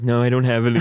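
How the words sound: It is said in a mocking imitation voice.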